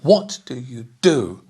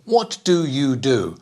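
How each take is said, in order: First: Some words are stressed more than others. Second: All four words get equal stress. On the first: The speaker calls it right. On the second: The speaker calls it wrong.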